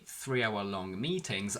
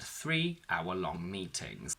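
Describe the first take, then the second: First: The words run together with no pause after three. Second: There is a short pause right after three. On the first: There were several meetings lasting three hours each. "you keep three-hour-long altogether" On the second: There were three meetings lasting one hour each. "you can put a bit of a pause after three"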